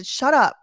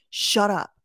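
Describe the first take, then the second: First: Louder, higher snapped shut up; annoyed shut up. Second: Said in the usual way. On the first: Real, not acted. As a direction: bark it back at the screen. Repeated shut up, louder take.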